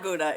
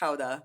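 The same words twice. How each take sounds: First: It is said the usual English way. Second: It is said the way Germans say it. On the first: The speaker calls it wrong. "It is not Gouda" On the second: The speaker calls it right. "the true pronunciation of Gouda"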